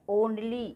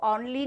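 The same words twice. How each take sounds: First: "Only" with a rounded "oh" at the start; correct O vowel. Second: "only" with an open "aw" at the start; wrong AU vowel. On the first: Teacher correcting the mistake, "Only" with an OH sound. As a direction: say "Only" as "ohn-lee". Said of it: "ओ की मात्रा लगाना है". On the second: Teacher showing what not to say, "only" with an AW sound. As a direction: mispronounce "only" as "awn-lee". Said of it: "इसको only नहीं बोलना है". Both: Shown as a demonstration.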